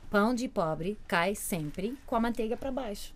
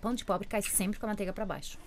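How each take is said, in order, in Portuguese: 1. A frase é dita devagar. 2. A frase é dita em velocidade normal.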